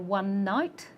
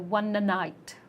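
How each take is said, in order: First: The words are joined with no added vowel. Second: An extra vowel is added between the words. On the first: The speaker calls it right. "You want to say" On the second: The speaker calls it wrong. "and you say"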